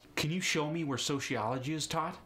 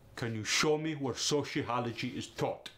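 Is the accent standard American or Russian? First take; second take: standard American; Russian. First: It is said with a standard American accent. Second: It is said with a Russian accent.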